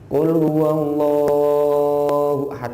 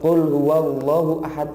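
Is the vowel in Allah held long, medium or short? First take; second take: long; short. First: The vowel in Allah is held too long. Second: The vowel in Allah is cut too short. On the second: "itu kependekan"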